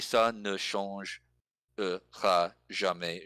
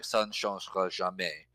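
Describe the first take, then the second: First: It is careful, with every syllable sounded. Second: It is quick, with weak syllables dropped. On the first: "But it's" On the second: "when you say it quickly, it sounds like"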